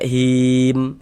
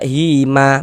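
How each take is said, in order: First: The word ends on a silent final consonant. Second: The word ends with an added vowel sound. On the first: The speaker calls it right. "kita baca him" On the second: The speaker calls it wrong. "Jangan dibaca hima baru berhenti"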